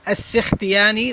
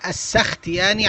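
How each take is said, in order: First: The first vowel is not an 'a' sound. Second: The first vowel is an 'a' sound. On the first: This is the more common everyday pronunciation. "وهذا أشهر ونحن نطلقه دوما" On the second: This is the pronunciation judged correct by the scholar. "بفتح السين السختياني على الصحيح"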